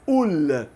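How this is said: The word begins with a glottal stop. This is the Lebanese dialect form. "Mas a gente diz"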